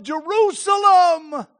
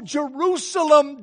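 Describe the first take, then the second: First: Slow, louder cry of Jerusalem, pitched higher; anguished cry. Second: Slow mournful Jerusalem, held long; lament. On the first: Jesus lamenting over Jerusalem, loud slow anguished cry. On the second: Jesus lamenting over Jerusalem, slow sorrowful call. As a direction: grieve over the city, drawn out. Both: Acted. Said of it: "Because it's important, because of emphasis".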